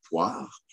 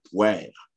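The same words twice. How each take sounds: First: Said in the usual way. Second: "poire" said as "pwère"; old Québécois pronunciation. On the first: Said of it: "à la place de poire". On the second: Shown as a demonstration. Lecturer showing old usage to listeners, "poire" as "pwère". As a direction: open è vowel in "poire", like "pwère". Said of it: "on pouvait dire poire".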